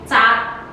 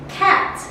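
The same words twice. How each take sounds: First: It is pronounced with Indonesian sounds. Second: It is pronounced with English sounds. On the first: "if we try to read this word in Indonesian, we do not say cat. We say cat" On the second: "we pronounce as cat"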